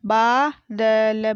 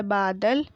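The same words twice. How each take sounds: First: बादल drawn out as baa, da, la; very slow बादल, each letter held apart; spelled out. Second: Said in the usual way. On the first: Shown as a demonstration. Teacher sounding out बादल for pupils, syllable by syllable. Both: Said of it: "मैंने इस तरीके से पढ़ा".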